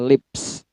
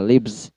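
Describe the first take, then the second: First: The word ends with an s sound. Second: The word ends with a z sound. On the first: "lips itu menggunakan S aslinya" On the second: "Atau Z semua"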